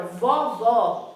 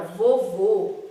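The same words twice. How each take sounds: First: VOVÓ stressed with open "aw" vowels; emphatic open-O "vovó". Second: VOVÔ stressed with closed "oh" vowels; emphatic closed-O "vovô". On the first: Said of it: "o som da palavra vovó é aberto". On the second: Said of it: "o som da palavra vovô é mais fechado". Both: Shown as a demonstration.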